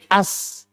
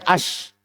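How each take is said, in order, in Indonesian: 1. Konsonannya dilafalkan sebagai s. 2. Konsonannya dilafalkan sebagai sh. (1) "menjadi as. Itu tidak dibolehkan"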